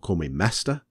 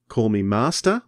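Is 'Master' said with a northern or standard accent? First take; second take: northern; standard. First: It is said in a northern accent. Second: It is said in a standard accent.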